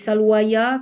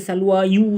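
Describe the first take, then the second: First: The word ends with an added ya sound. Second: The word ends with an added yu sound. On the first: "tak boleh salwaya" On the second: "Jangan baca salwa yu, tak boleh"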